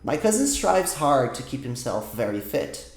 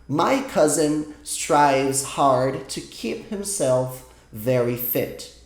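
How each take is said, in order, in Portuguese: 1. A frase é lida em um ritmo mais rápido e natural. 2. A frase é lida devagar e com cuidado.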